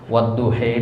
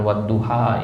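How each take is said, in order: First: The final vowel is bent toward 'ee'. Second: The final vowel is an open 'ah'. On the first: It follows the Warsh reading tradition. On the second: It follows the commonly heard reading.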